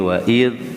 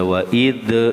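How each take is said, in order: First: The final consonant ends without a bouncing release. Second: The final consonant ends with a bouncing release. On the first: The speaker calls it right. "ini wa'id" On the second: The speaker calls it wrong. "Jadi nggak dibaca wa'id"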